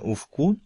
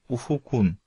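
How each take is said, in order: First: The second-syllable vowel is dropped. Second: The second-syllable vowel is kept. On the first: The speaker calls it wrong. "не ufkun" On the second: The speaker calls it right. "а ufukun"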